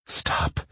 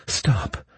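First: Whispered meek stop; meek plea. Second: Sharp pleading cry; cried plea. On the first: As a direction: plead it softly, barely voiced. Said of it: "she pleaded meekly". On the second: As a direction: cry out stop to halt him. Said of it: "Her plea reached me". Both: A narrator's reading.

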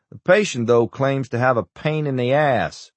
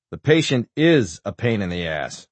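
First: "patient" lifted high, then a drop; stress on PATIENT. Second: "is" emphasized in a dry retort; stress on IS. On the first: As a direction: pitch up PATIENT as the topic of a quip. Doctor's quip, echoed with changed stress. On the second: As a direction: lean on IS as a correction. Corrects the quip, stressing is. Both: A narrator's reading.

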